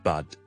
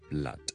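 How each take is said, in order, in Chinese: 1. B之后听不到L音。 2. B之后能听到L音。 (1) "佢有时会可能读成有啲类似。" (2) "blood B L O O D blood"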